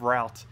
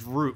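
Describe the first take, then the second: First: The word does not sound like 'root'. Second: The word sounds like 'root'. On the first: This is the expected way to say it. "instead of Route" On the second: This is how locals say it. "everyone says Route"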